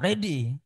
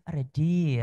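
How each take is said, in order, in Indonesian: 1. Diucapkan semangat dengan logat Lampung. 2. Diucapkan lembut dengan logat Sunda. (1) "Kalau Rehan dari Lampung harus semangat tuh" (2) "kalau Kang Hari kayaknya dari Sunda jadi halus ya"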